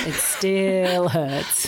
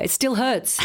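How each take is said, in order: First: Very slow, drawn-out "still"; lingering lament. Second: Said in the usual way. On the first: Real, not acted. Fan recalling the missed wicket, slow mock-pained lament. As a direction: stretch out STILL as if the wound is open.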